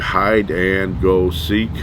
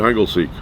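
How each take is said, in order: First: The phrase is said slowly, each word separate. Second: The phrase is said fast and run together. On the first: "said it's slow" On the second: "Everybody would say it quickly"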